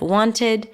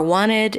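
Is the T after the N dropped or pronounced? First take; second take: pronounced; dropped. First: The T after the N is clearly pronounced. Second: The T after the N is dropped. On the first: "instead of" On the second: "people tend to drop it like"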